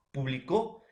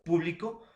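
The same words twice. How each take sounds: First: "Publicó" with final CÓ stressed; stress on last syllable. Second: "Público" with PÚ stressed; stress on first syllable. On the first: Teacher contrasting the verb for students, "Publicó" stressed on final CÓ. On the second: Teacher defining the noun for students, "Público" stressed on PÚ. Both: Shown as a demonstration. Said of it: "Este puede ser el acento".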